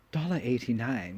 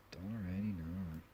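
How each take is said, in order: First: Said in the usual way. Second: Dollar eighty-nine, repeated much softer and falling; soft disbelieving echo. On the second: Real, not acted. Laughing at an old wine ad, softly repeats the price. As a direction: mutter the price back, unimpressed.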